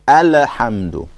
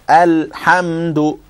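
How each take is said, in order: First: The L bounces with an extra sound after it. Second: The L flows straight into the H sound. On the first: The speaker calls it wrong. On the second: The speaker calls it right.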